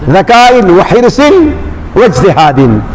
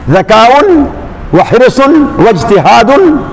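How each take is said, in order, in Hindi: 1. हर शब्द का अंत -in की ध्वनि से होता है। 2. हर शब्द का अंत -un की ध्वनि से होता है। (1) "अगर उसको आप बदल मानते हैं सित्ततिन से" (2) "और अगर इस्तेनाफ मानते हैं"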